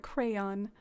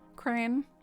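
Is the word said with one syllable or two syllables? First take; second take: two syllables; one syllable. First: The word is said with two full syllables. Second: The word is squeezed into one syllable. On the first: "I have to enunciate the crayon" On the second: "some people say it like crane"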